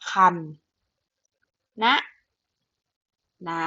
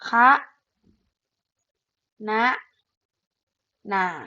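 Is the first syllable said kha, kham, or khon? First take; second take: kham; kha. First: The first syllable is said as kham. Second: The first syllable is said as kha. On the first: "แบบที่หนึ่งคือคำนะนา" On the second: "แบบที่สองอ่านได้ว่า"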